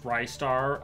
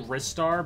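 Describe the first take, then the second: First: The first syllable sounds like 'rye'. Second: The first syllable sounds like 'wrist'. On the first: The speaker calls it wrong. "a lot of people have pronounced it as Rystar" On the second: The speaker calls it right. "it's apparently Ristar because like it's supposed to be like his wrists"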